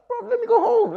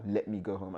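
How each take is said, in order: First: Very high, loud squeal of protest; exasperated cry. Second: Said in the usual way. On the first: Retold or imitated. Man begging partner to let him leave, exasperated. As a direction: shoot up into a loud falsetto plea. Escalated plea in retold quarrel.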